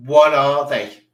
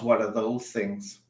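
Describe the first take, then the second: First: "What" thrown out much louder, falling hard; loud disbelief. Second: Said in the usual way. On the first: Real, not acted. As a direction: shout the question at the screen. Repeats the shocked question louder.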